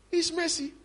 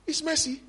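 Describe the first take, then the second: No difference in how they are said.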